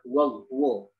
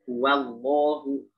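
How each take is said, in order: First: The w sound is heavy and thick. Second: The w sound is light and thin. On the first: The speaker calls it wrong. "Bukan huwallahu" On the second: The speaker calls it right. "Jadi dibacanya gimana?"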